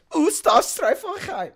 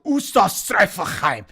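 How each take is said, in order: First: Much higher, slow mock-German word; fake German. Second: Slow, mock-German nonsense word; fake German. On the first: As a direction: squeal it in a jokey German accent. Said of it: "just fucking with the accent". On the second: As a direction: ham up a German sound. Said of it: "this German phrase that is not even German".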